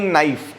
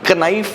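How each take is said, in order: First: No k sound is pronounced before the n. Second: A k sound is pronounced before the n. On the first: The speaker calls it right. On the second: The speaker calls it wrong.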